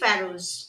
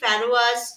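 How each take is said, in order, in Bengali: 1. শব্দটি দুটি সিলেবলে উচ্চারিত হয়: fa-rose। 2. শব্দটি তিনটি সিলেবলে উচ্চারিত হয়: fa-ro-as। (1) "সঠিক উচ্চারণ হচ্ছে" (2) "যেগুলো কিন্তু ভুল উচ্চারণ"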